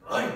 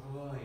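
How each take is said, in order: First: Put-on Roy barked like a hard German accent; harsh German-style Roy. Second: French-style Roy. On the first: Annoyed Polish partner saying Roy in a hard German accent. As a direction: snap the name Roy like an angry German. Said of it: "like a German hard accent". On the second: Retold or imitated. Loving Polish partner saying Roy in a French accent. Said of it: "like the beautiful French accent".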